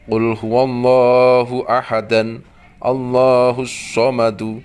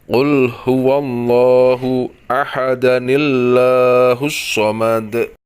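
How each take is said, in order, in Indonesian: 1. Kedua ayat dibaca dengan jeda di antara keduanya. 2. Kedua ayat disambung dengan tambahan bunyi 'ni'. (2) "Jika diwasolkan, maka dibaca"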